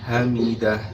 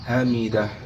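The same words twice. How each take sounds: No difference in how they are said.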